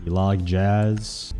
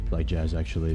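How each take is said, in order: First: Slow, lightly voiced Bee Movie line; Bee Movie quote. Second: Said in the usual way. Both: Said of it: "I remember the famous line".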